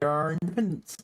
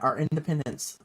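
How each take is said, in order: First: The words are mumbled and unclear. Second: The words are spoken clearly and distinctly. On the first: The speaker calls it wrong. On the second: The speaker calls it right.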